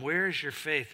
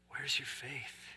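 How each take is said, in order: First: It sounds harsh and scolding. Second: It sounds gentle and warm.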